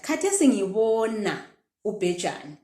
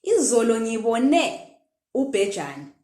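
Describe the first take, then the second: First: "ngibona" stretched and falling; present-tense intonation. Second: "ngibone" rising onto its last syllable; raised "ne" closing "ngibone", then "ubhejane" falls; past-tense intonation. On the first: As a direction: hold the "bo" of "ngibona", then drop. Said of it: "say it exactly like that". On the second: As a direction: lift the final "ne" of "ngibone". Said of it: "intonation when we're talking in past tense". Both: Shown as a demonstration.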